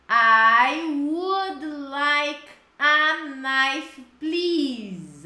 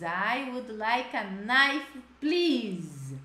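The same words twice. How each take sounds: First: "I would like a knife, please" very slow and louder; slow model phrase. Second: Said in the usual way. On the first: Shown as a demonstration. Teacher modeling the answer, slow and loud. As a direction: drag each word out for the class.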